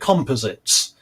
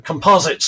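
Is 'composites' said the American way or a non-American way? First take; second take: non-American; American. First: It is said in a non-American pronunciation. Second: It is said in an American pronunciation.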